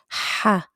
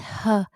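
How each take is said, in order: First: A strong h pushed from the throat. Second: A light plain h like in English. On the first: The speaker calls it right. "you have to stress on it" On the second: The speaker calls it wrong. "It's not like an H in English. Not. It's not ha"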